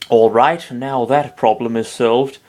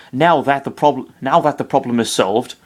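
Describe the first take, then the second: First: Slow, put-on English accent. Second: Said in the usual way. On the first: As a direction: say it like a posh English lord. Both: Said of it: "I sound like fucking Peter Dinklage".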